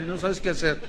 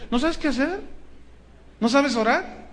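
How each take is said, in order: First: Said in the usual way. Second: Higher, rising mock disbelief on "¿No sabes qué hacer?"; mock incredulous question. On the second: Shown as a demonstration. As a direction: toss "¿No sabes qué hacer?" back in a high, teasing rise. ("¿No sabes qué hacer?" con tono burlón y agudo)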